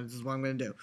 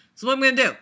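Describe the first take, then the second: First: Said in the usual way. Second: Louder, higher insistent repeat; emphatic repeat. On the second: Real, not acted. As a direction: say it again like a firm decision.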